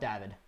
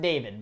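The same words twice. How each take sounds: First: The name is said the European way. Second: The name is said the Canadian way. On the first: "some of the Europeans call it David" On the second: "We pronounce it David"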